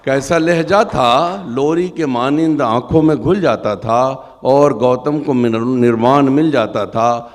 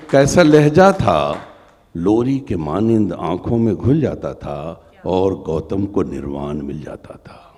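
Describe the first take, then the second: First: Higher, louder impassioned repeat; impassioned recitation. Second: Measured poem recital; stately nazm recitation. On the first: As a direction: lift the repeated line high. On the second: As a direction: recite with feeling. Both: Acted.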